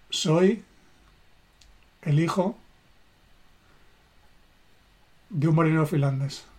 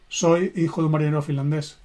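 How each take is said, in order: First: Slow, with long pauses between the words; a heartfelt statement with pauses; felt slowly, word by word. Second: Said too fast. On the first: Shown as a demonstration. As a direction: let each word land, feeling it. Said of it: "sintiendo cada palabra". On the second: Retold or imitated. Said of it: "Lo dices muy deprisa".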